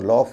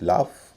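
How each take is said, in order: First: The vowel is a rounded 'aw' sound. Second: The vowel is an open 'aa' sound. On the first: The speaker calls it wrong. "इसे लॉफ या ऑन्ट नहीं कहेंगे" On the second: The speaker calls it right. "A यू का उच्चारण आ होता है"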